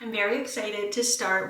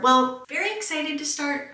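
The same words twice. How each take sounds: First: Said in the usual way. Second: High, loud overexcited take. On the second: Shown as a demonstration. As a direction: pitch it way up, hammed-up excitement. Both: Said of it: "I don't know if that's actually true".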